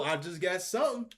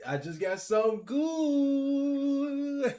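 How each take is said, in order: First: Said in the usual way. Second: High, slow, drawn-out hype; excited. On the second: Real, not acted. Gamer hyping his pack pull, slow high excitement. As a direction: stretch good out with anticipation. Anticipating a good card.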